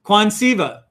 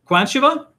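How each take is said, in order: First: Quansiva as kwahn-SEE-vuh, falling; corrected pronunciation. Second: Quansiva as KWAN-shuh-vuh, high, questioning; second pronunciation guess. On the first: Real, not acted. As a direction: repeat Quansiva with "see" in the middle. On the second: Shown as a demonstration. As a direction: ask Quansiva with a "sh" in the middle. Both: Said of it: "Give it, give it to me".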